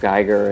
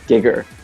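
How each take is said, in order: First: The first vowel sounds like 'eye'. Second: The first vowel sounds like 'ee'. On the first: This is how English speakers say the name. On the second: This is how Japanese speakers say the name.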